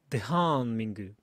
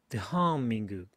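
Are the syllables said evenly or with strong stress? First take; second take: stressed; stressed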